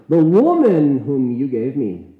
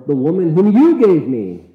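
First: "woman" pushed up and louder, rest falling away; stress on woman. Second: "you" punched high and loud, accusing God; stress on you. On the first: Preacher tries the stress on "woman", loud stress. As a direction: lean hard into "woman". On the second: Preacher shifts blame onto God, stressed "you". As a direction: hit the word "you" like pointing a finger. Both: Shown as a demonstration. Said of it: "we don't know where the emphasis lies".

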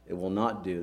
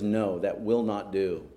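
First: Quieter "It will not do", stress on "not"; softer repeat. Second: "will" stressed, slow and firm; slowly, stressing "will". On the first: Christ repeating the refusal, softer, pressing "not". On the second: Christ refusing the mourners, slow and firm on "will". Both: Shown as a demonstration.

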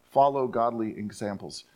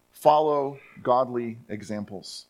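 First: Said in the usual way. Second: Slow, weighty stress on Follow; emphatic. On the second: Shown as a demonstration. Preacher drives the instruction home. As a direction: press each word of Follow godly examples, slowly. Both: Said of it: "it's actually emphatic".

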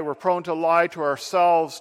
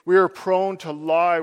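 First: Said in the usual way. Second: "are" in "We are prone to lie" leaned on; stress on ARE. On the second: Shown as a demonstration. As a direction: lean into the word "are" before "prone to lie".

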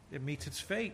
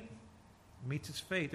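First: Said in the usual way. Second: Softer and slow, letting it sink in; preacher echoing the warning softly and slowly; hushed, slow repeat. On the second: Shown as a demonstration. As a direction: drop the voice and slow right down on fate. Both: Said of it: "repeats phrase, second softer".

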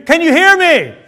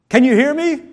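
First: High, loud yell to be heard; much louder. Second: A bit higher and firmer; first try at being heard; raised voice. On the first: Repeating to someone not responding, shouted louder. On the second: Asking someone who didn't respond, voice raised. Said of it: "Say it louder". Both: Shown as a demonstration.

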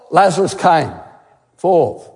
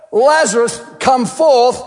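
First: Said in the usual way. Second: A raised, ringing command to the tomb; commanding call. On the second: Acted. Preacher voicing Jesus calling Lazarus forth, commanding. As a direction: call him out of the grave with authority.

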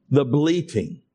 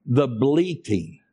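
First: Said in the usual way. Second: Bleating drawn out slowly and weighed; "The bleating" spoken slowly, word by word; slow emphasis. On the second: Shown as a demonstration. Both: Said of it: "I purpose this word".

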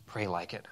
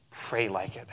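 First: Softer, lower repeat of Pray; hushed second time, almost to yourself; soft echo. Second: Said in the usual way. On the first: Shown as a demonstration. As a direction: let Pray like it sink in quietly.

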